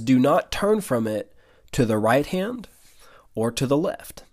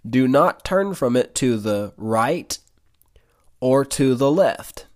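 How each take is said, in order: First: It is said at a normal pace. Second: It is said very slowly.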